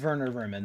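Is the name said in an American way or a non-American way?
non-American. The name is said with a non-American pronunciation. "That's technically how you're supposed to pronounce it"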